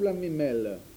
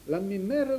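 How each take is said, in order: First: The last syllable starts with an L sound. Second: The last syllable starts with an R sound. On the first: "Il y en a qui disent la mémelle avec un L" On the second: "Mère avec R"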